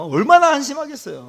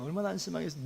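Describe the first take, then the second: First: Loud, high preaching outburst; emphatic exclamation. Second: Much softer, dropping away; subdued aside. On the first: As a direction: exclaim it with force. Exclaims, then repeats it softly. (목청 높여 한탄하듯) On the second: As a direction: let it fall to a quiet echo. Soft repeat of the exclamation. (작게 읊조리듯) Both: Real, not acted.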